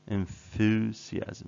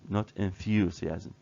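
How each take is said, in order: First: There is no y sound after the th. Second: There is a y sound after the th.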